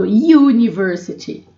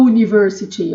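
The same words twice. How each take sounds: First: University said with the "iu" start, like "you"; correct pronunciation. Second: University said with a plain "u" start, no "you" sound; wrong pronunciation. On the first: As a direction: say university the right way, "you-niversity". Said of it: "Eu falo university". (university certo, com "iu" no começo) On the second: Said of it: "Eu não falo university". (university errado, com "u" em vez de "iu") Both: Shown as a demonstration.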